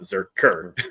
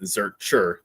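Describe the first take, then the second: First: The middle consonant is a k sound. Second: The middle consonant is a ch sound. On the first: The speaker calls it wrong. "not Zerker" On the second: The speaker calls it right. "it's it's one hundred percent Zurcher"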